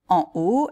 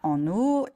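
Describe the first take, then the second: First: En is kept separate, with no n link. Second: En links to haut with an n sound. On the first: The speaker calls it right. "on dit" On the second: The speaker calls it wrong.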